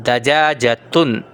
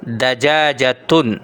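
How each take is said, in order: No difference in how they are said.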